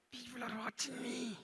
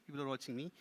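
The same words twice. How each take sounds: First: High, soft puppet voice; small high puppet showing off; self-important puppet. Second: Said in the usual way. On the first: Pretend. Puppet speaks, ventriloquist echoes.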